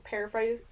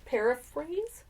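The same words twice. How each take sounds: First: "paraphrase" said as "paraphrai"; "paraphrase" ending in "-frai", no final z; mispronounced. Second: "paraphrase?" with a clear final z and rising tune; "paraphrase?" retried carefully as a question; correct pronunciation. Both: Shown as a demonstration. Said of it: "I can't pronounce anything".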